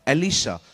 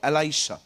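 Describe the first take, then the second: First: The middle vowel is a short 'ee' sound. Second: The middle vowel is an 'ai' sound. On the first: This is the Hindi form of the name. "जिसका नाम था एलिशा" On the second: This is the English form of the name. "In English call"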